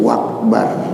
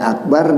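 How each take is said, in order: First: The word begins with a w sound. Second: The word begins with a plain vowel sound. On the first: The speaker calls it wrong. "tetapi wakbar" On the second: The speaker calls it right. "Bukannya akbar dia baca"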